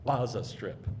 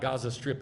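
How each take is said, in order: First: The name begins with a throaty ayin sound. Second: The name begins with a hard G sound. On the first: The speaker calls it right. "It's with an ayin" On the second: The speaker calls it wrong. "it's not"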